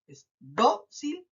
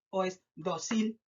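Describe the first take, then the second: First: "dócil" with a strong, long DÓ; stress on first syllable. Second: "dócil" mis-stressed as do-CIL, rising; stress on last syllable. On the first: Teacher offering the class a choice, stress on DÓ of "dócil". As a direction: punch DÓ in "dócil", then a separate cil. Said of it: "se carga en la letra". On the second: Teacher offering the wrong option to test, "dócil" stressed as do-CIL. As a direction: push the weight onto CIL in "dócil". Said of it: "identificar dónde se carga la voz". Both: Shown as a demonstration.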